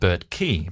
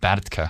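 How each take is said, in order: First: The name ends with a long ee vowel. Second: The name ends with a short, weak vowel. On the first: This is how Australians say it. "Australians pronounce it Bertkey because they can't differentiate between a single E and a double E" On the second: This is how Dutch speakers say it. "If you're Dutch, you pronounce it Bertke"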